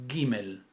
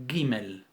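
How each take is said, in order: No difference in how they are said.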